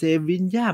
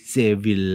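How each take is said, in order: First: The name ends with a 'ya' sound. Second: The name ends with a final 'l' sound. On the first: The speaker calls it right. "แต่จริงๆเขาบอกต้องอ่านว่าเซวินยา" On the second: The speaker calls it wrong. "ผมก็อ่านผิดนะ"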